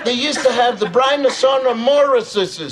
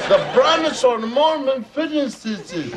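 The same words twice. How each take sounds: First: "Brynosonomorphises" offered as a word to copy; made-up long word. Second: "Brynosonomorphises" stretched out slowly, higher; slow corrective demonstration. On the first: Father teaching child a made-up dinosaur name, mock-learned pronunciation. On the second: Father correcting child's attempt at a dinosaur name, slow higher demonstration. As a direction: draw out "Brynosonomorphises" for a child to repeat. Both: Shown as a demonstration. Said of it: "Say that".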